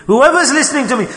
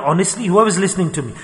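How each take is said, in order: First: "Whoever's listening" pitched high and insistent; higher, pressing appeal on "Whoever's listening"; emphatic repeat. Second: Said in the usual way. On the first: Real, not acted. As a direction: drive home "Whoever's listening to me" in a raised voice.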